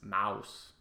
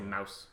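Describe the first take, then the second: First: The vowel sound is drawn out long. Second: The vowel sound is short and clipped. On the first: This is how someone else said it. "he would elongate the O-U-S" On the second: This is how the speaker says it. "Whereas I would say mouse. It was like a short"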